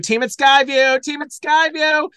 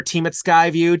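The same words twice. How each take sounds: First: High, loud repeated cheer; mock award shout-out. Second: Said in the usual way. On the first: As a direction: whoop it like an award winner.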